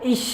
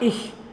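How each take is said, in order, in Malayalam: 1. ഈ വാക്ക് 'sh' ശബ്ദത്തിലാണ് അവസാനിക്കുന്നത്. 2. ഈ വാക്ക് മൃദുവായ 'h' ശബ്ദത്തിലാണ് അവസാനിക്കുന്നത്. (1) "ഇവിടെ ഇഷ് എന്നും പറയാം" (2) "ഇഹ് എന്നും പറയാം"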